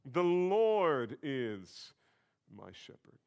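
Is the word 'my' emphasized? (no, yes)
no. The word my carries no special emphasis.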